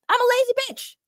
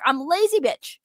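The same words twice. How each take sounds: First: Higher, sing-song put-on voice on the repeat; playful self-mocking repeat; mock silly voice. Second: Said in the usual way. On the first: Shown as a demonstration. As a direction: say it again in a goofy cartoon voice.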